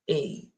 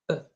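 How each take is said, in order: First: The vowel is full and strong, like 'ay'. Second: The vowel is short and reduced, like 'uh'. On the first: The speaker calls it wrong. "instead of saying a" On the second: The speaker calls it right. "you will hear me mentioning uh"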